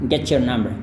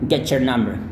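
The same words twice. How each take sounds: The two takes are said the same way.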